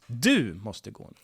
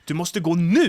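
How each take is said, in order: First: The stress is on du. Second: The stress is on nu.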